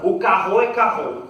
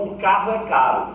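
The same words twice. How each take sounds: First: Put-on loud French-accented Portuguese, caro turned into carro; mock French accent. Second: Said in the usual way. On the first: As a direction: imitate a French speaker failing at Portuguese. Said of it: "O francês, por exemplo". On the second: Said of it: "Fala pra mim, por favor".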